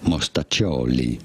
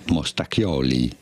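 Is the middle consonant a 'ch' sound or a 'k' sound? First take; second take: ch sound; k sound. First: The middle consonant is a soft ch sound. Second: The middle consonant is a hard k sound. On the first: The speaker calls it right. "but rather mostaccioli" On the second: The speaker calls it wrong. "it is not said as mostacchioli"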